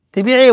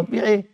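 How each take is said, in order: First: Indignant question. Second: Soft muttered question; quiet aside. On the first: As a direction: challenge the idea of selling. (استنكار بصوت أعلى) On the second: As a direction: say it under the breath. (سؤال بصوت خافت) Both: Shown as a demonstration.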